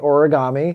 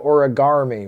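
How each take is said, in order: First: The word is said in the ordinary way. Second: An extra R sound is added in the middle. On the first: "we have it regularly" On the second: "with an R"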